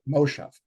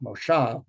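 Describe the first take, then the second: First: Moshav stressed on the first syllable, MOshav; Yiddish stress. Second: Moshav stressed on the last syllable, moSHAV; Hebrew stress. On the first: Teacher showing the Yiddish pronunciation, Moshav said MOshav. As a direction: lean on MO of Moshav, let shav fall away. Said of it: "an earlier point of accent". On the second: Teacher contrasting Hebrew and Yiddish stress, Moshav said moSHAV. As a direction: put the weight on SHAV of Moshav. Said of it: "likes to put the accent on the last syllable". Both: Shown as a demonstration.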